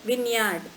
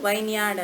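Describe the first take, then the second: First: The first syllable has a short i. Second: The first syllable rhymes with 'wine'. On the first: The speaker calls it right. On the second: The speaker calls it wrong. "ವೈನ್ಯಾರ್ಡ್ ಅನ್ಬಾರ್ದು"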